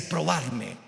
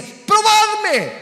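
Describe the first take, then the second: First: Said in the usual way. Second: Exclamación muy aguda y fuerte; grito imperativo. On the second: Acted. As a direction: lanza el mandato divino a todo pulmón. Dios citado a gritos, luego repetido normal. (grito de predicador, alto y sostenido)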